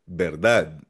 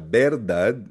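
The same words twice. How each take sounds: First: The stress is on the last syllable. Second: The stress is on the first syllable. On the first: The speaker calls it right. "Nasa dad" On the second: The speaker calls it wrong. "Hindi siya verdad"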